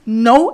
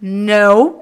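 First: "no" with a light, brief N; simple, unaccentuated "no"; ordinary N. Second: "no" with a strong, lengthened N; stretched, emphatic English "no"; accentuated English N. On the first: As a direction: say "no" without leaning on the N. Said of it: "é uma coisa". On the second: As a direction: lean into the N of "no", drawn out slowly. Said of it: "ele é muito mais acentuado". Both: Shown as a demonstration.

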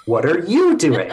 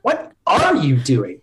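First: "you" gets the weight, falling after it; stress on you. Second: Slow, with "are" stressed; slow take, "are" carries the stress and the line falls. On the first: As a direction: lean on "you" accusingly. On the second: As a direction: drag it out, pressing on "are". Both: Shown as a demonstration. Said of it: "put emphasis on a different word each time".

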